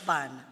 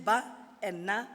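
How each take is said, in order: First: Said in the usual way. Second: "ba" and "na" each as its own beat; separate syllables. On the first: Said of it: "put together is". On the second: Shown as a demonstration. Teacher showing syllables before joining them, said separately. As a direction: keep "ba" apart from "na". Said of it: "put together is bana".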